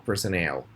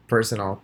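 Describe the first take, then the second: First: Personnel said with stress on the last syllable, per-so-NEL; per-son-NEL stressed last. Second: Personal said with stress on the first syllable, PER-so-nal; PER-sonal stressed first. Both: Shown as a demonstration. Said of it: "personal and personnel".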